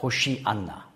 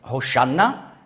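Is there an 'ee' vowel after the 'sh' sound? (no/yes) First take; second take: yes; no. First: It is said in the longer, full form. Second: It is said in the shorter, contracted form. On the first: This is the full command form. "anstatt Hosanna" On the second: This is the short command form common two thousand years ago. "hebräisch ausgesprochen Hosanna, das ist die Kurzbefehlsform"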